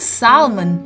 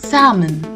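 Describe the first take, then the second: First: The L sound is pronounced. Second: The L sound is silent. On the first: The speaker calls it wrong. "Not salmon, which we commonly mispronounce it as" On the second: The speaker calls it right. "It is salmon"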